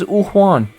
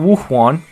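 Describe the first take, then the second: First: The name starts with a plain ooh vowel. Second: The name starts with a clear w sound. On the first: "he says ooh Juan" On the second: "not Wu Juan"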